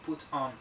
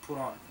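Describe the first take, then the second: First: It has a British accent with a crisp T. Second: It has an American accent with a soft T. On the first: "En el inglés británico sí" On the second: "pero aquí put on. American English"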